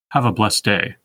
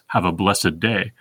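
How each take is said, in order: First: The word blessed has one syllable. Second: The word blessed has two syllables. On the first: "two unaccented syllables followed by two accented ones" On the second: "he would also pronounce blessed as blessed"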